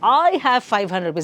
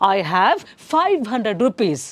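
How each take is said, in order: First: The stress falls on the word I. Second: The stress falls on five hundred. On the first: Who has the money matters most. "So ಐನೂರು ರೂಪಾಯಿ important ಅಲ್ಲ, ನನ್ನ ಹತ್ರ I" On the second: The amount of money matters most. "Five ಹಂಡ್ರೆಡಲ್ಲಿ ಬರ್ತಿದೆ"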